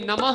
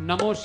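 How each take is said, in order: First: The word ends in an 'ah' sound. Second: The word ends in an 'o' sound. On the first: The speaker calls it right. "तो नमः बोलिए" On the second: The speaker calls it wrong. "नमो शिवाय नहीं बोलना।"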